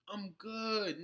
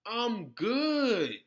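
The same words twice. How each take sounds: First: Said in the usual way. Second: Loud, final brush-off with a falling end; loud curt refusal. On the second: Real, not acted. Refusing the imagined demand, a loud flat-out no. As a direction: shut it down hard.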